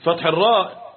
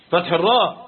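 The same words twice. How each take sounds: The two takes are said the same way.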